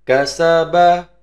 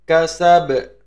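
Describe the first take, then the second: First: The word ends with a final a vowel. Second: The word ends on a bare b consonant. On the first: The reading continues without stopping. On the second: The reading stops at the end of the verse.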